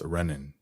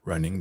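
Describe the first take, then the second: First: The final G sound is dropped. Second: The final G sound is pronounced.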